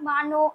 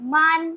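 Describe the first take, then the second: First: It ends with a short final vowel sound. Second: It ends on a bare consonant, no final vowel. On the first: The speaker calls it right. "এটাই হচ্ছে সঠিক উচ্চারণ" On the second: The speaker calls it wrong. "এগুলো কিন্তু ভুল উচ্চারণ"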